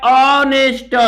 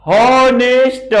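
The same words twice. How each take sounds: First: ऑनेस्ट starting straight on the vowel, no h; correct silent-h pronunciation. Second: HONEST with the h sounded, "हॉनेस्ट"; common mispronunciation. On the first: Teacher giving students the real pronunciation, silent-h ऑनेस्ट. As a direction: drop the h, open with AW in ऑनेस्ट. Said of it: "इसका pronunciation होता है". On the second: Teacher showing students how many misread it, h-sounded हॉनेस्ट. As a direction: pronounce an audible h starting हॉनेस्ट, drawn out. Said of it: "बहुत लोग इसको पढ़ते हैं". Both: Shown as a demonstration.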